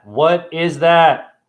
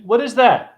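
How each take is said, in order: First: "What is that?" very slow, word by word; slow, emphatic question. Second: "What is that?" high and quick; high-pitched question. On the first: Quizzing viewers on the constellation, slow emphatic repeat. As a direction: stretch out each word of "What is that?". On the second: Quizzing viewers on the constellation, high quick question. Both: Real, not acted.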